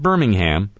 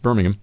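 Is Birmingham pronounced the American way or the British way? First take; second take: American; British. First: Birmingham is said with an American pronunciation. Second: Birmingham is said with a British pronunciation. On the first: This is the name as pronounced for a different place. The speaker calls it wrong. "not Birmingham" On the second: This is the name as pronounced for the city in England. The speaker calls it right. "it's over in England, it's Birmingham"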